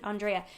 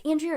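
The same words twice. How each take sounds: First: ANDREA said as ahn-DRAY-uh, open "ahn" and "dray"; checking the name. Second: ANDREA said as an-DREE-uh, first syllable like "and"; unsure of the name. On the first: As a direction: try Andrea again as ahn-DRAY-uh, asking. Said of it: "I wanna say it perfectly". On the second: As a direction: try Andrea as an-DREE-uh, hesitantly. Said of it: "I never wanna be disrespectful". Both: Shown as a demonstration.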